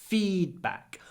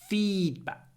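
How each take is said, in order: No difference in how they are said.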